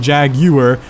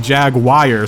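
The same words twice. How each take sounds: First: It is said in a British accent. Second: It is said in an Australian accent. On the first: "British people say Jaguar" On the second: "some other people like Australia say Jaguar"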